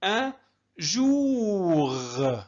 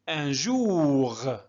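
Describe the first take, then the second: First: جوغ drawn out very slowly; slow model for students; syllable by syllable. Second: Said in the usual way. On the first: Shown as a demonstration. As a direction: hold جوغ long after أن. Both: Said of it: "ممتاز".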